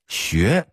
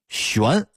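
First: It is said in a Datong dialect accent. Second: It is said in standard Mandarin pronunciation.

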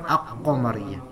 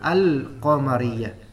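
First: The l merges into a doubled q sound. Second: The l is clearly pronounced before the q. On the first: The speaker calls it wrong. "bukan aq-qamariyah. Salah" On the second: The speaker calls it right. "Lamnya itu disukunkan dan dibaca al-qamariyah"

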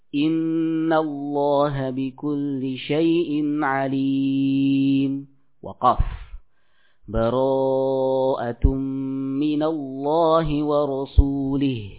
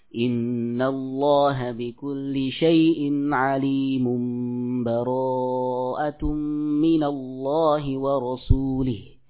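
First: A full stop with a new breath separates them. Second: The two phrases run together without any break. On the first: "waqaf pada surah Al-Anfal, kemudian melanjutkan lagi" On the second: "disambung akhir surah Al-Anfal dengan surah At-Taubah"

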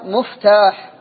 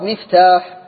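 First: The first vowel is u (muftah). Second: The first vowel is i (miftah). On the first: The speaker calls it wrong. "من الخطأ أن يقال مفتاح" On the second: The speaker calls it right. "الصواب مفتاح"

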